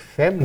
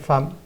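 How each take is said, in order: First: The vowel is pronounced like E. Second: The vowel is pronounced like A. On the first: It is a letter-by-letter decoding that is not a real word. The speaker calls it wrong. "Ela vai ler femme e depois ela dá-se conta que femme não existe" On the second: It is the real word for woman. The speaker calls it right. "o E vai ser lido A"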